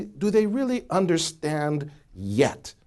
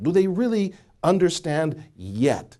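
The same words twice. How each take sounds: First: Said in the usual way. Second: "yet" set apart and stressed. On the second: Shown as a demonstration. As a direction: lean firmly on the word "yet". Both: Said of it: "I wanna emphasize that word yet".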